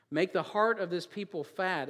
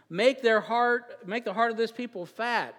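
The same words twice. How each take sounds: First: Said in the usual way. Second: Slow, higher and louder on the first words, pressing the verse; preached verse. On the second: Acted. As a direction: preach it at them. Preached second reading of verse.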